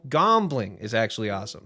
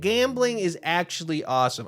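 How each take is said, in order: First: The first vowel of gambling sounds like 'cot'. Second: The first vowel of gambling sounds like 'cat'. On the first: The speaker calls it right. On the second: The speaker calls it wrong.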